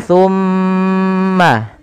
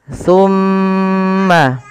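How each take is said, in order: The two takes are said the same way.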